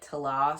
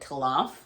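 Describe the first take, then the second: First: The word ends with a vowel sound. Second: The word ends with an f sound. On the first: The book's pronunciation guide suggests this. "it sounded like Tala" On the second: A guess made from the spelling. "at first I was pronouncing it like Talamf"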